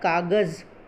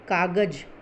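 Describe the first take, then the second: First: The last consonant is a z sound. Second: The last consonant is a j sound. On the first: The speaker calls it right. "इसका सही उच्चारण होता है कागज़" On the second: The speaker calls it wrong. "लेकिन ये correct नहीं है, ये सही उच्चारण नहीं है।"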